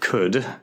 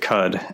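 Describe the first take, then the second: First: The word rhymes with could. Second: The word does not rhyme with could. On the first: The speaker calls it right. "you pronounced it correctly" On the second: The speaker calls it wrong. "that's probably not how it's meant to be said"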